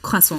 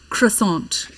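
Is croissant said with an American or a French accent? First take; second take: French; American. First: It is said with a French accent. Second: It is said with an American accent. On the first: The speaker passes as fluent. The speaker calls it right. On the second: The speaker is marked as a foreigner. The speaker calls it wrong.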